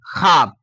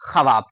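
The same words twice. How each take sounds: First: ख्वाब as one syllable "khaab", silent w; spoken form. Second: ख्वाब as two syllables "kha-waab"; spelling reading. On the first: Teacher gives students the example, w left silent. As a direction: drop the व from ख्वाब. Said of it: "लेकिन क्या बोलते हैं हम लोग?". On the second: Teacher shows what is really written, w sounded. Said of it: "असल में लिखा क्या है?". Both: Shown as a demonstration.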